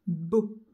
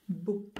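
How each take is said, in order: First: Beau said loud and rising; emphatic syllable. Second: Said in the usual way. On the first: Shown as a demonstration. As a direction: call out Beau clearly for the class. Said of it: "on va écrire beau". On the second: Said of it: "j'entends B et j'entends O".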